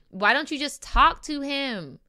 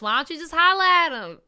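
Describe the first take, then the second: First: It is said in the speaker's normal voice. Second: It is said in an imitation of Riley's voice.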